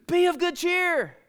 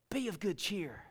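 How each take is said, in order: First: High, slow, ringing announcement; jubilant proclamation. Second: Said in the usual way. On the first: Shown as a demonstration. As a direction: proclaim it with joy. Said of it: "Paul jumps up and goes". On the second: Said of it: "Paul stand up and say".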